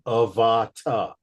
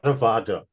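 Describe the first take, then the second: First: The consonant before the last vowel is a clear T. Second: The consonant before the last vowel is a soft D. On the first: The speaker calls it right. "You're right. Avata, ta" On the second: The speaker calls it wrong. "not Avada"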